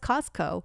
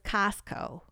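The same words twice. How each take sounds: First: It is said in a neutral accent. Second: It is said in a strong Michigan accent.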